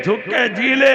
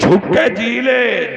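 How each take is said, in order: First: Said in the usual way. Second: Line stretched slowly for weight; slow drawn-out line. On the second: Shown as a demonstration. Preacher opening his verse, slow and weighty. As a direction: draw out झुक के जी ले, leaning on ले.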